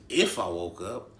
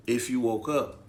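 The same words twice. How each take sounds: First: Slow question with a heavy stress on "If"; disbelieving echo. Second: Said in the usual way. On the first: Retold or imitated. Patient echoing staff's words, incredulous stress on "If". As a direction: hit "If" hard and question it.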